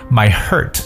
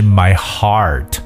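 First: The vowel sounds like the one in 'hurt'. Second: The vowel sounds like the one in 'car'. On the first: The speaker calls it wrong. "可能把这个词读成hurt。My hurt 这是不对的" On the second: The speaker calls it right. "我的心是my heart"

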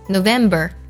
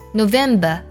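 First: American accent, with r-colouring at the end. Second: British accent, with no r-colouring at the end. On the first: "美式发音" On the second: "英式发音"

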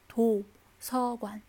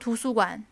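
First: It is said with native Korean syllables, no tones. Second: It is said with Chinese-style syllables and tones. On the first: The speaker calls it right. "而是图서馆" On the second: The speaker calls it wrong. "图书馆我们不能说图书馆"

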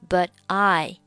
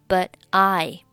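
First: The t of 'but' is silent. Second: The same.

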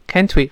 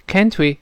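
No difference in how they are said.

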